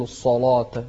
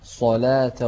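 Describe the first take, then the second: First: الصلاة with a thick, rounded "law"; faulty "sa-law-ta" for الصلاة; wrong heavy lam. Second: صلاة with a thin, open "laa"; correct light lam. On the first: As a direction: darken the lam and alif in الصلاة. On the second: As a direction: keep the heaviness off the lam in صلاة. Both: Shown as a demonstration. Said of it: "ما تقول الصلاة".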